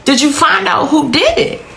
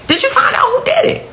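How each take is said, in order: First: Urgent question. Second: Higher and fast, pleading repeat; mother demanding answers from the officer; retold frantic repeat. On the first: Retold or imitated. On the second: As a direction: push the question again in rising panic. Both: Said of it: "My exact next question to the officer is".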